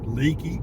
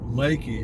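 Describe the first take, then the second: First: The first vowel sounds like 'lee'. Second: The first vowel sounds like 'lay'. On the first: This is how the spelling suggests it is said. "It looks like leaky" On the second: This is how local people say it. "it's pronounced Lakey in this area"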